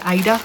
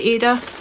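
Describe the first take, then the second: First: The first vowel sounds like 'eye'. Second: The first vowel sounds like 'ay'. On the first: "they say Ida" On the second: "I say Ada"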